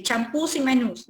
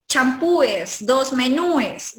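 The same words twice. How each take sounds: First: Champús y menús, each ending straight in -ús; only an s after the stressed ú in champús, menús; correct plurals champús, menús. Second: Champúes, menúes slowly, each ending ú-es; wrong plurals champúes, menúes. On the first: Teacher gives the exception, champús y menús with plain -ús. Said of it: "simplemente agregas ese ahí". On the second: Teacher shows what not to say, slow champúes, menúes with extra -es. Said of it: "Aquí no vayas a decir". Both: Shown as a demonstration.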